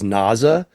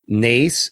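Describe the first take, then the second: First: The name is said with German pronunciation. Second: The name is said with English pronunciation. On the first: It is the German word for nose. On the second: It is the teacher's name.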